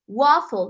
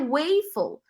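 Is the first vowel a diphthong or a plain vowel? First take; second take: plain vowel; diphthong. First: The first vowel is a plain single vowel. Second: The first vowel is a gliding diphthong. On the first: The speaker calls it right. "mas waffle" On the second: The speaker calls it wrong. "não pode ser waffle, porque tem duas consoantes iguais"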